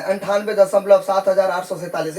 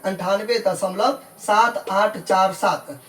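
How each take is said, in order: First: Said in the usual way. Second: Slow "सात, आठ, चार, सात", each digit separate after "दशमलव"; digit-by-digit reading. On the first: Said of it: "ऐसे नहीं पढ़ना है". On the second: Shown as a demonstration. Teacher shows how to read decimals, "सात आठ चार सात" slowly digit by digit. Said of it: "दशमलव के बाद अलग-अलग पढ़ेंगे".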